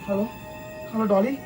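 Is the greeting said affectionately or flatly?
affectionately. The greeting sounds warm and affectionate. The speaker calls it right. "प्यार से"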